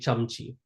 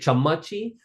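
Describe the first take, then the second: First: The middle vowel is dropped entirely. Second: A short vowel is sounded in the middle. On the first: The speaker calls it right. "get rid of that uh and say chamchi" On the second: The speaker calls it wrong. "We're not going to say chammachi"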